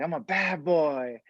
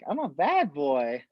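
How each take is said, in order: First: It is yelled in an intense tone. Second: It is said in a silly tone.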